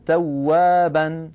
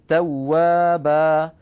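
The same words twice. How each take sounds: First: توابا as "tawwaban", nun sounded at the end; "tawwaban" in running speech; connected nunation. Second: توابا as "tawwaba", long final a, no nun; "tawwaba" with the nun replaced by a long a; pausal alif. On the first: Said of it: "في الوصل تكون توابا". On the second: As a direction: stop on a stretched a in توابا. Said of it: "وفي الوقف توابا". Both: Shown as a demonstration.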